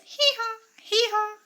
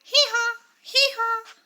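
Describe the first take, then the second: First: Donkey bray. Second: High loud hee haw; donkey bray. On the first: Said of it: "Donkey says". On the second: Teacher answers with the donkey's sound, loud high bray. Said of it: "What is the sound of donkey?". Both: Shown as a demonstration.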